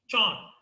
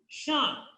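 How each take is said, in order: First: The suffix begins with a voiced j sound. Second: The suffix begins with a soft sh sound. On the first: The speaker calls it wrong. "Os alunos pronunciam às vezes John" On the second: The speaker calls it right. "So it is Sean"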